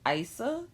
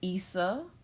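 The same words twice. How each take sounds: First: The first vowel sounds like 'eye'. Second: The first vowel sounds like 'ee'. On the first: "said it myself as Isa" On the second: "it is pronounced Isa"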